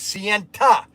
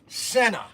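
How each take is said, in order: First: The word ends in an audible 'nta' sound. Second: The word ends in a plain 'na' sound. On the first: The speaker calls it right. "the real pronunciation of Senna is Sienta" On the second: The speaker calls it wrong. "the Italians say this wrong"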